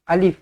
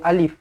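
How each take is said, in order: Both takes have the same delivery.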